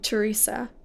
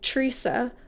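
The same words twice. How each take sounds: First: The name is said with three syllables. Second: The name is said with two syllables. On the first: "I say my name Teresa with three syllables" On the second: "you say Teresa with two syllables"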